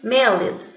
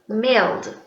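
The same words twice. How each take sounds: First: The ending is said as an extra syllable. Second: The ending is said as a plain d sound. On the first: The speaker calls it wrong. "We don't pronounce ed. Like sometimes I hear people saying mailed. It's not good" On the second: The speaker calls it right. "So we say mail, mailed. Don't pronounce the E"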